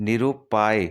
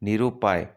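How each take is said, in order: The two takes are said the same way.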